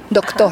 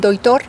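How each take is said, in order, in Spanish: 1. El sonido k se mantiene antes de t: doctor. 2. El sonido k se convierte en deslizamiento i: doitor.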